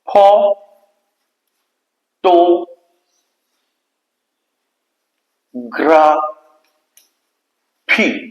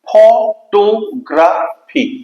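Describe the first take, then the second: First: Each syllable is said separately with pauses. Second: The syllables are joined without any pauses.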